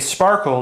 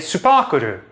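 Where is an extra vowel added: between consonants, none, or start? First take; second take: none; between consonants. First: It is said with no extra vowels added. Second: Extra vowels are added between the consonants. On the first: A native speaker says it. "a Japanese speaker wouldn't say sparkle" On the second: A Japanese speaker says it. "they'd say supakuru"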